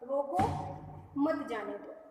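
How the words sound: There is a pause right after 'roko'. Stop the person; do not let them go. "अल्प विराम जो है इसको बीच में लगा दें रोको के बाद में"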